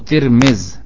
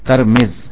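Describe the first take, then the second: First: Both the t and the m take an i vowel. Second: The t takes a, the m takes i. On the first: "تا اور میم دونوں کے نیچے زیر پڑھیں" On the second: "تا کو زبر کے ساتھ پڑھیں اور میم کو کسرے کے ساتھ"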